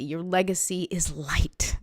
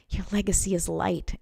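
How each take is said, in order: First: Breathy unvoiced whisper of the line. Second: Said in the usual way. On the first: Real, not acted. Repeated line, first whispered.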